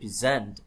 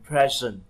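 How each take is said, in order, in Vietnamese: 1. Trọng âm rơi vào âm tiết thứ hai. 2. Trọng âm rơi vào âm tiết thứ nhất. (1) "thường cái verb ấy thì cái trọng âm thường nó rơi vào âm tiết thứ hai, ví dụ là present trình bày" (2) "còn present đó là hiện tại hoặc là món quà"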